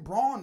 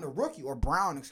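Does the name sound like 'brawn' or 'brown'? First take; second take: brawn; brown. First: The vowel sounds like the one in 'lawn'. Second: The vowel sounds like the one in 'town'. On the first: It follows the spelling of the name. "It's spelled Braun" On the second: It follows how the player says his own name. "he pronounces it Brown"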